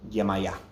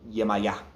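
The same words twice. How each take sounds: Both takes have the same delivery.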